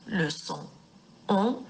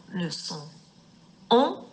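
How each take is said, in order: Both takes have the same delivery.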